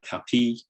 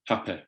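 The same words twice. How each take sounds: First: The final vowel is tense, like ee. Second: The final vowel is low, like eh.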